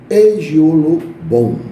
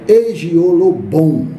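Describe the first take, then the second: First: The final syllable has an 'o' vowel. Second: The final syllable has an 'o' vowel.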